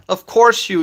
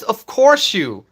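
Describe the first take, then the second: First: A hint of mock confidence; confident. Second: Said in the usual way. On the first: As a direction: read it like you're sure of it. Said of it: "That's a confident, "Of course you". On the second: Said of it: "That's a confident".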